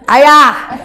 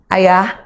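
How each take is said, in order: First: The call is pitched extremely high. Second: The call is at a normal pitch. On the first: It is the third call, now exasperated. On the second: It is the first call.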